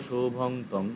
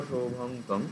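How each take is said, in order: The two takes are said the same way.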